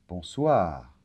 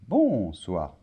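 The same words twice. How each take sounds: First: The stress is on the last syllable. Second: The stress is on the first syllable.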